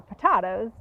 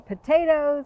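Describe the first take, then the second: First: "potatoes" said as puh-TAH-toes; alternative pronunciation. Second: Said in the usual way. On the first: Shown as a demonstration. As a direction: say "potatoes" with an AH in the middle. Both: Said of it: "planting potatoes or potatoes".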